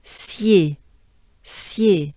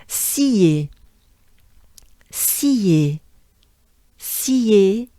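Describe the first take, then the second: First: "Scier" shortened to a quick syah-like glide, syay. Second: "Scier" stretched out as a long see, then yay; slow practice version of "Scier", see-yay; drawn-out sounds. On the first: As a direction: squeeze "Scier" into one short syllable, syay. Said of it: "you shorten a little bit". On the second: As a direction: say "Scier" unshortened, lingering on the ee. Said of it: "And you shorten a little bit". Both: Shown as a demonstration.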